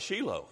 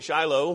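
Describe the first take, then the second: First: The name is given an Israeli Hebrew pronunciation. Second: The name is given its usual English pronunciation. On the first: This is how people living there say it. "you hear the Israelis, they call it Shiloh" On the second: This is how the speaker has always said it. "I've always called it Shiloh"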